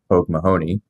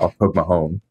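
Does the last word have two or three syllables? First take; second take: three; two. First: The last word has three syllables. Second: The last word has two syllables. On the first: The speaker calls it wrong. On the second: The speaker calls it right.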